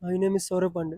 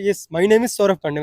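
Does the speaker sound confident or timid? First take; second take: timid; confident. First: It is said timidly, without energy. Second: It is said confidently, with energy.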